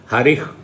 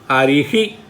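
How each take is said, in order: First: The word ends in a bare breathy h. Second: The final h is followed by an echoed vowel. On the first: This is the northern way of saying it. "in North India, people by and large they pronounce the visarga correct" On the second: This is the southern way, made distinct and clear. "in South India, to be very very distinct and make it very clear, we say"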